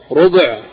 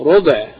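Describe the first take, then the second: First: "ربع" as rub', no vowel after the b; sukun on ba. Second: "ربع" as rubu', with u after the b; damma on ba. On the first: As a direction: close "ربع" straight from b into ayn. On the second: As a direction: give "ربع" two syllables, short u in both. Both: Shown as a demonstration. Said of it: "ضم الباء وتسكينها".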